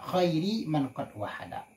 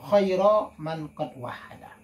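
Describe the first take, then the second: First: The first word ends in an i vowel. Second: The first word ends in an a vowel. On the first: It describes or renames the prophet. "dibaca dengan jar khairi" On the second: It is the object of an omitted verb. "boleh dibaca dengan nasab"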